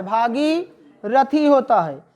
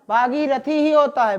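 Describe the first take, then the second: First: Bhagirathi spelled out slowly, each syllable clear; slow dictation. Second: Said in the usual way. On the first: Shown as a demonstration. (धीरे-धीरे बोलकर लिखवाना) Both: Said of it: "तो भागीरथी लिखो".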